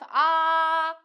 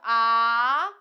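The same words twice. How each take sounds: First: The pitch stays high and level. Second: The pitch rises from middle to high. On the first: "five, five" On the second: "three, five"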